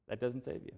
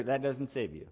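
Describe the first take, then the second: First: Much softer repeat of That doesn't save you; echoed softly to let it sink in; quiet. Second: Said in the usual way. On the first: Shown as a demonstration. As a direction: drop the voice for the repeat.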